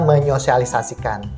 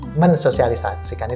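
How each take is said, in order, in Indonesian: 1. Awalannya menyatu menjadi 'menyo', tanpa 's'. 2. Awalannya tetap 'men' sebelum 's' yang jelas. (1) "yang benar menyosialisasikan" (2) "mensosialisasikan itu tidak benar"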